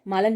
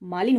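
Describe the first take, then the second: First: The second syllable has an 'a' vowel. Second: The second syllable has an 'i' vowel. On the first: The speaker calls it wrong. "मालन नहीं" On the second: The speaker calls it right. "मालिन होता है"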